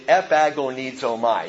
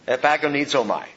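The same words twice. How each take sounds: First: The word is said slowly. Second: The word is said at normal speed.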